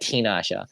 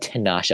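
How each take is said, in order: First: The first syllable has an 'i' vowel. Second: The first syllable has an 'a' vowel. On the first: The speaker calls it right. "Tinasha, not Tanasha" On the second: The speaker calls it wrong. "Why do I say it like that?"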